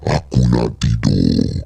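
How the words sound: It is said in a changed, altered voice.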